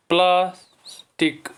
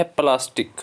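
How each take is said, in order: First: "plastic" slow, split as pliers, टिक; syllable by syllable. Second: Said in the usual way. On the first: Shown as a demonstration. Teacher asking children to count syllables, syllable by syllable. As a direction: leave a gap inside "plastic" before टिक. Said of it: "इसमें हैं दो syllable". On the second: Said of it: "इसमें कितने syllable हैं".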